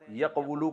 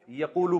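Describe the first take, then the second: First: First یقولو as yaq-wu-lu, w sounded; original uncontracted form. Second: یقولو as ya-quu-lu with long u; contracted form. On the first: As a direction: break یقولو after the q and voice the w. (یقولو میں قاف ساکن، واو پر پیش) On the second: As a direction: glide through a long oo in یقولو, no w. (یقولو میں قاف پر لمبا پیش) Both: Shown as a demonstration. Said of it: "یقولو کو یقولو پڑھتے ہیں".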